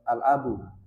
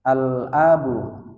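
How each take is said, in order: First: The L sound in 'al' is dropped. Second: The L sound in 'al' is clear. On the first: The speaker calls it wrong. "nggak ada l-nya gitu ya, itu kurang" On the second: The speaker calls it right. "al itu harus lidah kita itu ada l-nya"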